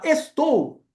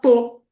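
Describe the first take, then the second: First: The word is said in full, with its first syllable. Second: The word is cut down to its stressed syllable. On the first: "Em vez de você falar estou" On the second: "você vai falar tô"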